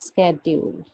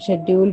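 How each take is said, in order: First: It starts American-style with 'sk'. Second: It starts with an Indian-style 'sh' sound.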